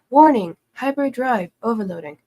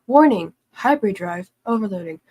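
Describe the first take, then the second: Both takes have the same delivery.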